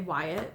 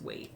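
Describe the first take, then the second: First: The name is said with two syllables. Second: The name is said with one syllable. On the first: The speaker calls it wrong. "I've been pronouncing it wrong. I want to say Wyatt" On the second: The speaker calls it right. "but I believe it's Waite"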